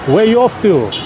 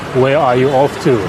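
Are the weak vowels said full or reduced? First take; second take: reduced; full. First: Weak vowels are reduced to schwa. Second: Every vowel is said full, without schwa. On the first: The speaker calls it right. "native English speakers make it easy by pronouncing with the schwa sounds" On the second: The speaker calls it wrong. "Non-native English speaker who don't know the schwa sounds will pronounce"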